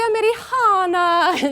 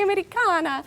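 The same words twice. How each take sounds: First: It is said with a Florentine Italian accent. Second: It is said with a standard Italian accent. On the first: "my favorite is still the one from Florence" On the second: "instead of"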